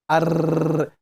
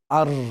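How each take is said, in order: First: The r sound is rolled with repeated taps. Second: The r sound is a single tap. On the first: The speaker calls it wrong. "that is the repetition" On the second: The speaker calls it right. "we say ar"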